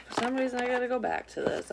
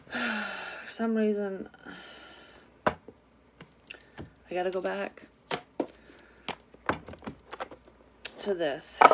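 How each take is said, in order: First: Much higher and at normal speed; higher repeat. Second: Very slow, each phrase spaced out with long pauses; slow, drawn-out delivery. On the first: Repeating the card message to viewers, pitched up high. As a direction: say it again up high, more briskly. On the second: Reading her cards to viewers, slow and drawn out. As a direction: stretch it out slowly, pausing between pieces. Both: Shown as a demonstration.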